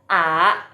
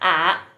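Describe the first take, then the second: First: The pitch rises from middle to high. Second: The pitch dips low, then comes back up. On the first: "yang kedua bacanya a a" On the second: "yang ketiga bacanya a gitu, karena keriting tandanya"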